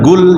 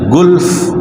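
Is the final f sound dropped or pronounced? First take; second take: dropped; pronounced. First: The final f sound is dropped. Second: The final f sound is pronounced. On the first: The speaker calls it wrong. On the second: The speaker calls it right. "huruf matinya dua, jangan tidak dibaca yang terakhir"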